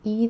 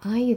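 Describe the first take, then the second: First: Either starts with an ee sound. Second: Either starts with an eye sound.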